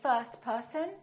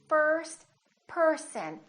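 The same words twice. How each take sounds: First: The R sound is weak or dropped. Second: The R sound is strong and curled. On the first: The speaker calls it wrong. "Don't say first person" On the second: The speaker calls it right. "make a strong R"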